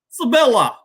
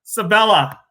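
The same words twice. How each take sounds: First: Name said high in a mock Russian accent. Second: Said in the usual way. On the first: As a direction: Sabella in a hammed-up Russian accent. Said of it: "Let me get my Russian accent ready". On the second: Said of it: "Let me get my Russian accent".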